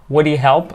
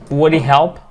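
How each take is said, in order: First: The h of 'he' is dropped and linked. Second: The h of 'he' is dropped and linked.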